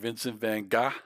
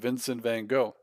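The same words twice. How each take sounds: First: Gogh is said with a throaty G. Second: Gogh is said with a plain hard G. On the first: "Is it like Vincent Van Gogh?" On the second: "I always thought it was just Vincent Van Gogh"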